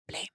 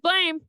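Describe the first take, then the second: First: The word is whispered. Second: The word is spoken in full voice.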